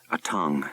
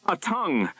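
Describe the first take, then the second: First: Said in the usual way. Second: Much higher, hushed dread; name it in disbelief; frightened realization. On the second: A narrator's reading. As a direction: pilot naming the horror at the window. Pilot sees monster.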